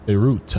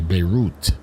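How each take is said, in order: First: The last syllable does not sound like 'root'. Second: The last syllable sounds like 'root'. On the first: The speaker calls it wrong. "I keep saying it wrong" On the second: The speaker calls it right. "You got to say root"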